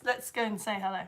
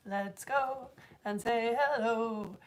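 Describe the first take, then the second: First: Said in the usual way. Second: A soft little sung intro, drawn out; sung, slow, soft singsong with a falling hello; slow sung line. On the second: Shown as a demonstration. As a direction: sing it slowly and softly, stretching hello. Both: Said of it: "I didn't have more to the song".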